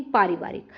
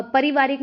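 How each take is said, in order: First: पारिवारिक opening on long paa, lower pitch; correct long vowel. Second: पारिवारिक as परिवारिक, short first a; mistaken short vowel. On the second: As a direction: start पारिवारिक on a brief puh. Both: Shown as a demonstration. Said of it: "पारिवारिक नहीं".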